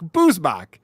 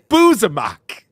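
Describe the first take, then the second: First: The name is said in two syllables. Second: The name is said with an extra middle vowel. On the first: The speaker calls it right. "it's the word booze and mock" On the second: The speaker calls it wrong. "He always says Boozamak"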